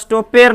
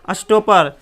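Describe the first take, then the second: First: The second vowel sounds like 'e'. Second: The second vowel is short and reduced. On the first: The speaker calls it wrong. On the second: The speaker calls it right.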